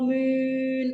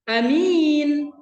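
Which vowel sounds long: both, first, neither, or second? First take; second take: both; second. First: Both vowels are long. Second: The first vowel is short, the second long. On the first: "A-nya panjang, minnya panjang" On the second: "A-nya pendek, minnya panjang"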